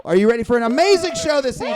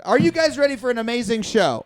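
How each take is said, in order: First: Louder, fast, rising crowd pump-up; hype announcer. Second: Said in the usual way. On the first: Shown as a demonstration. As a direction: whip the crowd up. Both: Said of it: "crowd hype repeated".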